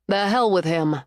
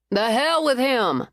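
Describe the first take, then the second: First: Said in the usual way. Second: Slow, higher defiant echo of the phrase. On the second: Acted. Cleo echoing Winter's dismissal of the ex, slow defiant toast. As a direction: raise "The hell with him" like a toast. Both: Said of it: "Cleo echoed".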